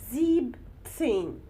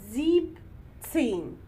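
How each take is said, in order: The two takes are said the same way.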